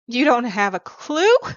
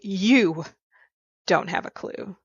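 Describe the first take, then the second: First: The stress falls on the word 'clue'. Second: The stress falls on the word 'you'.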